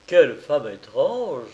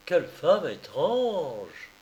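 First: Slow, musing to himself. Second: Very slow, drawn-out "Quelle femme étrange"; slow musing repeat. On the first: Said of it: "se dit Thaddée en lui-même". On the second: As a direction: repeat it to himself, lost in thought. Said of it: "en répétant". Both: A narrator's reading.

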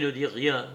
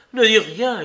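First: Said in the usual way. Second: Higher, louder urgent hushing; a loud, urgent plea for silence. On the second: A narrator's reading. Heathcliff hushing Catherine.

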